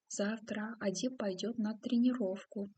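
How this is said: It is said as a question, rising at the end. It asks a question. "затем как вопросительное"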